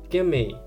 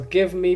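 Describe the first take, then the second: First: The words blend into one reduced 'gimme' sound. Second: The words are said separately in full form. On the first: "give me becomes gimme" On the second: "give me becomes gimme"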